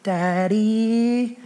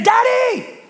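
First: Put-on long wheedling "Daddy" of a child wanting something; drawn-out pleading "Daddy". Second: "Daddy" said much higher and a bit louder, sliding down; daughter's high sing-song "Daddy". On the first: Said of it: "it's the twiddling of the fingers". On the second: Retold or imitated. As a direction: coax "Daddy" like a child about to admit trouble. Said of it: "nothing good is gonna come out of that".

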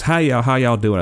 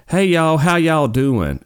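First: High-pitched mock Southern greeting; imitated Southern accent. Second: High, loud mock Mississippi twang; imitated Southern accent. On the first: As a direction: imitate her Southern accent, a bit quicker. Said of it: "she's gotta be making this up". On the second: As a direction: mimic an exaggerated Southern greeting, drawn out. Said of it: "I thought she was making her accent up".

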